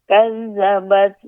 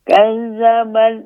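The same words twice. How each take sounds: Both takes have the same delivery.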